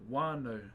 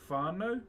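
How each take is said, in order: First: The word begins with a w sound. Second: The word begins with an f sound. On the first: "so they drop the W or the H" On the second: "like W H ... W H in my language is an F"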